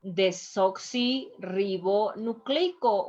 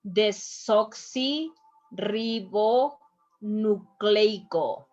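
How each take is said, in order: First: "Desoxirribonucleico" slowly, with only brief breaks; measured teaching reading of "Desoxirribonucleico"; slow but joined up. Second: "Desoxirribonucleico" very slowly, in separated chunks; slow teacher's breakdown of "Desoxirribonucleico", with pauses; syllable by syllable. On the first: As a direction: say "Desoxirribonucleico" carefully but more connected. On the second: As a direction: sound out "Desoxirribonucleico" as de-soxi, rribo, nu-cleico. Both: Shown as a demonstration. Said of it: "we have to pronounce all the letters".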